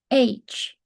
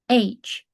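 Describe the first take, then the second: No difference in how they are said.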